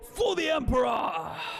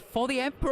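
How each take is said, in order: First: It is shouted out with lots of energy. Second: It is read out flatly, without much energy.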